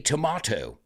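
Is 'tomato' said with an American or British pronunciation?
British. It is said with a British pronunciation. "you say tomato"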